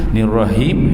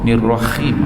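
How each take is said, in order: First: The final h is a plain light h. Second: The final h is rasped like kh. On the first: "he tak boleh juga" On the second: "bukan jadi kha, nirrahim, ha, tak kena juga"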